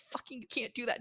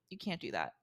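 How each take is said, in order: First: Higher-pitched, fed-up retort; exasperated. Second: Said in the usual way. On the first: Retold or imitated. Clerk retelling a clash with an angry guest, exasperated. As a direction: lose patience with an argumentative guest. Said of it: "they'll get angry at me, and I'm like". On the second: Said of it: "I'm like".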